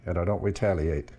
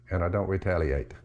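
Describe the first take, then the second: No difference in how they are said.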